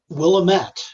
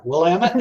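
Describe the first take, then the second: First: The ending does not rhyme with 'damn it'. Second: The ending rhymes with 'damn it'. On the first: The speaker calls it wrong. "I'm sorry, I pronounced that wrong" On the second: The speaker calls it right. "it's like, damn it, Willamette"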